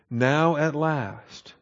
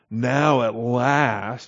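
First: It is said in a sincere, glad tone. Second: It is said in a snide, sarcastic tone. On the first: The speaker is truly glad about the help. The speaker calls it right. "Now that's legitimate. And that's celebrating" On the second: The speaker mocks how late the help came. The speaker calls it wrong. "a very snide remark"

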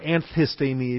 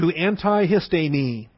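First: The t and h merge into one th sound. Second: The t and h sounds are said separately.

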